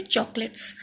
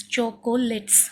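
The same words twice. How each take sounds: First: Said in the usual way. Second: "chocolates" slowly broken as cho, co, lets; three separate syllables. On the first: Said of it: "O is not clearly pronounced". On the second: Shown as a demonstration. Teacher putting the syllables together, "chocolates" in three slow beats. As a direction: say "chocolates" with every syllable apart. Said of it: "three syllables".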